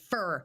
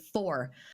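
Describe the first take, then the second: First: The word is said with the vowel of 'fur'. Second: The word is said with the vowel of 'for'. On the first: This is how the character would say it. The speaker calls it right. "instead of fur" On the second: This is the speaker's own habit. The speaker calls it wrong. "I would say for"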